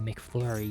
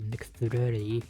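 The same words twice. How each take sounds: First: It is said with a plain English accent. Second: It is said with a Japanese accent. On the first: Japanese listeners would hardly understand it. The speaker calls it wrong. "you can't say McFlurry" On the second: Japanese listeners can understand it. The speaker calls it right. "you have to say McFlurry"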